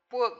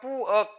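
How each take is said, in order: First: The vowel is said with the jaw half open. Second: The vowel is said with the jaw wide open. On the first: The speaker calls it right. "어금니와 어금니 사이를 이렇게 좁혀주면서" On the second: The speaker calls it wrong. "여기가 백이라면"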